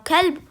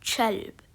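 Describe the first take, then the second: First: The word begins with a hard k sound. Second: The word begins with a ch sound. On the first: This is the usual form. "when they say kalb" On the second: This is the Emirati dialect form. "they replace it with a cha"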